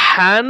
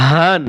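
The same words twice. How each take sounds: First: হান with a strong rasped throat h; small ha. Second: হান with a plain open, airy h; big ha. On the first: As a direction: push a tight h to open হান. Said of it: "ছোট হা". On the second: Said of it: "বড় হা". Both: Shown as a demonstration.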